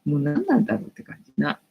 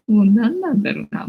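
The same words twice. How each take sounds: First: Said in the usual way. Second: Louder, laughing exasperation; laughing repeat. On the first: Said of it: "second take with a laugh". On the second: Real, not acted. Streamer laughing at the penalty rules to viewers. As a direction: laugh off the annoyance.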